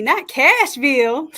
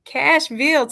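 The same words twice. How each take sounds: First: Not Cashville said slowly, with not pushed louder; playful correction, not stretched and rising; stress on not. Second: Said in the usual way. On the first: Shown as a demonstration. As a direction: lean hard on not, then a rising Cashville.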